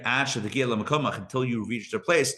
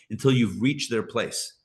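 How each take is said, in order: First: Until you reach their place drawn out slowly, each word weighed; slow it right down so the teaching sinks in; slow emphatic repeat. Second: Said in the usual way. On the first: Shown as a demonstration. Teacher repeating the line to students, slow and deliberate.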